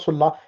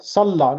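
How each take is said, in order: First: The first vowel sounds like a rounded 'u'. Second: The first vowel sounds like an open 'a'. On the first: The speaker calls it wrong. "not Sulla" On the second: The speaker calls it right. "Salla, not Sulla"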